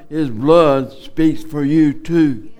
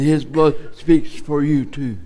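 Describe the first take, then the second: First: It is said at a louder, stronger volume. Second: It is said at a normal, quieter volume.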